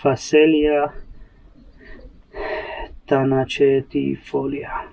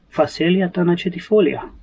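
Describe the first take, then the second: First: Phacelia tanacetifolia sounded out slowly, syllable by syllable; stumbling pronunciation. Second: Phacelia tanacetifolia said smoothly in one go, higher; fluent pronunciation. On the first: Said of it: "this thing that I cannot pronounce". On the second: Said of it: "I just created new neural pathways". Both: Real, not acted.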